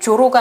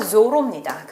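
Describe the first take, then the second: First: It starts with a j sound. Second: It starts with a buzzing z sound. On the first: The speaker calls it wrong. "조로가 아니라" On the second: The speaker calls it right.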